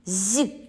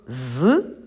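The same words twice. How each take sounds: First: The z sound is soft, palatalized. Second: The z sound is hard, not palatalized. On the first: "Цей звук м'який" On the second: "він твердий"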